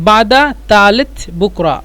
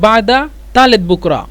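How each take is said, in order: The two takes are said the same way.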